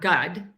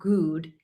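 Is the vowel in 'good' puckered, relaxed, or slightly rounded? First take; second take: relaxed; puckered. First: The vowel is said with fully relaxed lips. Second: The vowel is said with tense, puckered lips. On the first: "my mouth is not completely relaxed. It's not gud" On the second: "It's not completely puckered and tense. It's not good"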